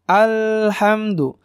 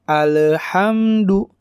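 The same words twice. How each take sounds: First: The L sound is held briefly without bouncing. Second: The L sound has a small bounce after it. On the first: The speaker calls it right. "Cara baca yang benar alhamdu, alhamdu ya. ... Jadi tidak ada pantulan. Dan sedikit ditahan" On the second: The speaker calls it wrong. "Ada orang yang bacanya alhamdu, alhamdu. Nah, itu tidak tidak benar"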